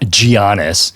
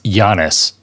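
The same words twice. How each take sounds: First: The word begins with a hard G sound. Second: The first sound is not a hard G. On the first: The speaker calls it wrong. "not Giannis. You don't pronounce the G" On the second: The speaker calls it right. "it's pronounced Giannis"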